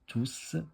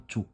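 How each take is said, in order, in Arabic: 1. صوت s النهائي منطوق. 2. صوت s النهائي صامت. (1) "تنطقوا فيها تي او يو اس" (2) "ما تبقية تنطقوها تو"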